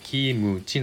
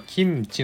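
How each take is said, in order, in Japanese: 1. mの後ろに母音の音がある。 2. mの後ろに母音の音はない。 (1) "日本語で発音するとKIMUCHI" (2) "韓国語ではこれはキムチなんですね。 KIMCHI"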